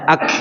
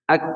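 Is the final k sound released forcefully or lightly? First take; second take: forcefully; lightly. First: The final k is released with a forceful, clear puff. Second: The final k is released lightly, without a clear puff. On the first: The sound is pushed out on purpose. The speaker calls it wrong. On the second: The sound comes out by itself. The speaker calls it right.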